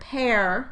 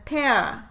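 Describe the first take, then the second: First: The vowel ends with an r sound. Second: The vowel ends without any r sound.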